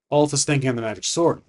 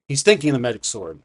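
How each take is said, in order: First: Said in the usual way. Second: "thinking" made the most prominent word; stress on thinking. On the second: Shown as a demonstration. Game master clarifying it is unspoken, stress on "thinking". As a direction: lean on "thinking", then let the sentence fall. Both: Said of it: "Not saying it, thinking about it".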